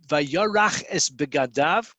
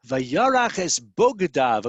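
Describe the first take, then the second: First: "begadav" read as be-ga-DAV, his clothing. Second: "bogdav" with a slow, louder o sound; reading bogdav. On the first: Teacher reads the verse plainly as "begadav". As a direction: say "begadav" with an e sound after the b. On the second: Teacher stresses the alternate reading "bogdav". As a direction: lean on "bogdav", his traitors, slow and louder. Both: Shown as a demonstration. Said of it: "The word can be read bogadav".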